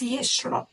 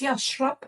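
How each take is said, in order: First: The first vowel is an 'e' sound. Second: The first vowel is an 'a' sound. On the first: This is the everyday Egyptian form. "in Egyptian Arabic, it's yashrab. So an E instead of an A" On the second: This is the standard written form. "this is how we pronounce the word yash, yashrab in M S A"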